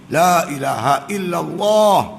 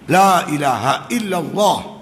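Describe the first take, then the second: First: The vowel in Allah is held long. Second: The vowel in Allah is cut short. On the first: The speaker calls it right. "dia kena gitu" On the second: The speaker calls it wrong. "Kita pendekkan. Salah tak? ... Tak mau"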